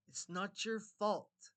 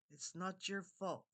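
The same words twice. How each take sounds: First: Slow, loud, weighty "It's not your fault"; emphatic reassurance. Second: Said in the usual way. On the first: Real, not acted. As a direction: stretch out and punch each word of "It's not your fault". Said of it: "I'm gonna say it like that". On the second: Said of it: "gonna say it like that".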